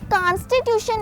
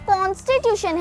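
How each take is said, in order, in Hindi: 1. पहला स्वर खुला 'aa' ध्वनि है। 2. पहला स्वर गोल 'o' ध्वनि है। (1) "ये कॉन्स्टिट्यूशन नहीं है, आ साउंड के साथ नहीं है" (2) "कॉन्स्टिट्यूशन है। ओ साउंड के साथ है"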